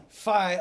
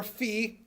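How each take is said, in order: First: "Fie" with a long eye vowel; fie pronunciation. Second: "fee" with a long ee vowel; fee pronunciation. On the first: Teacher reading the line to the class, "Fie" rhyming with pie. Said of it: "or fee, depending on who you are". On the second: Teacher offering the other reading to the class, "fee" rhyming with see. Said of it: "depending on who you are". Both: Shown as a demonstration.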